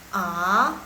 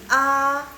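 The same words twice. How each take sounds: First: The pitch rises from low to high. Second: The pitch stays high and level. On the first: "A nada kedua" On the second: "A nada satu"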